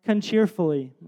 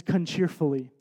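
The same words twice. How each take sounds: First: "Con cheerfully" mimicking a child, with "con" in place of "and"; toddler mispronunciation. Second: Put-on "con cheerfully" said like a toddler, not quite "and cheerfully"; toddler mispronunciation. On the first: Father quoting his daughter's answer, "Con cheerfully" in toddler speech. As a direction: say "Con cheerfully" as the little girl does. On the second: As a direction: clip "con cheerfully" the way a small child does. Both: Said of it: "she doesn't know how to say those three words".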